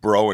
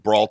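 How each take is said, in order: First: The name is said with a French pronunciation. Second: The name is said with an American pronunciation. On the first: "in France" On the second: "in America"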